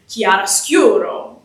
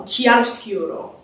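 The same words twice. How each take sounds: First: "chiaroscuro" with the weight on "scu"; stress on the penultimate. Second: Said in the usual way. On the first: Shown as a demonstration. Singer demonstrates Italian emphasis on "chiaroscuro" for the audience, stressing "scu". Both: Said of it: "the penultimate syllable would get the emphasis".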